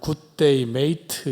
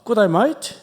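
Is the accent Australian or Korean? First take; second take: Korean; Australian. First: It is said in a Korean-style accent. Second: It is said in a broad Australian accent. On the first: "한국식으로 발음하면" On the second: "가끔 인사말 같은 경우에 사투리가 조금 있습니다"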